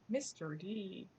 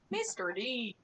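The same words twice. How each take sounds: First: It is said in his normal accent. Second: It is said in an Irish accent.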